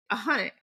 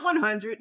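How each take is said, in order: First: "a hundred" with a relaxed, dropped final d; casual "a hundred". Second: "one hundred" fully articulated, final d included; careful "one hundred". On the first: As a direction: say "a hundred" loosely, swallowing the ending. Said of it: "Notice I said a hundred". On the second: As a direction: say "one hundred" properly, every consonant in place. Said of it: "like, not one hundred". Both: Shown as a demonstration.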